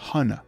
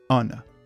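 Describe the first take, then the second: First: The word begins with a pronounced h sound. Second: The word begins with a vowel, h silent. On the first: The speaker calls it wrong. "Je n'ai pas dit honor" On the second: The speaker calls it right. "j'ai dit honor"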